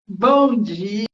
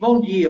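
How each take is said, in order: First: It is said in a cheerful, warm tone. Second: It is said in a grumpy, sour tone.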